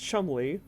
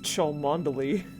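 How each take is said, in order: First: The name is said in two short syllables. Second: The name is said with every spelled syllable. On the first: The speaker calls it right. "which is the correct pronunciation" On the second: The speaker calls it wrong. "what George has been pronouncing as"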